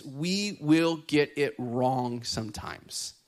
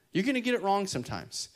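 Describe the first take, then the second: First: "will" dragged out and leaned on; slow emphasis. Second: Said in the usual way. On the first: Shown as a demonstration. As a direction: say "we will get it wrong" slowly. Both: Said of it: "As we're learning".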